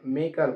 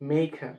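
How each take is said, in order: First: The first vowel is short and clipped. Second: The first vowel is drawn out and long. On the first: The speaker calls it wrong. "আমরা অনেক সময় মেকার বলি, আসলে মেকার হবে না" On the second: The speaker calls it right. "মেয়ের উপরে টান হবে"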